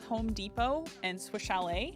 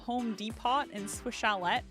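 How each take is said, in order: First: The final T sounds are left silent. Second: The final T sounds are clearly pronounced. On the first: The speaker calls it right. "there's a silent T at the end of both of them" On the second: The speaker calls it wrong. "Guess who pronounced them"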